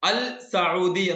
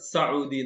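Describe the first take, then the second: First: The L sound of 'al' is clearly heard. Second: The L is silent and the S is doubled. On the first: The speaker calls it wrong. "അൽ സൗദി എന്ന് പറയാറില്ല" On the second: The speaker calls it right. "സൗദി എന്ന് പറയുള്ളൂ. സൗദി എസ് രണ്ടെണ്ണായി"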